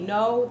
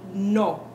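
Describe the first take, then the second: First: The vowel glides, English style. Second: The vowel is short, crisp and pure. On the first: "we say no" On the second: "they say no. So keep that O crisp"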